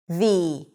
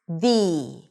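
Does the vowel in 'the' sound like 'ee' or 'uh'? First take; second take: ee; ee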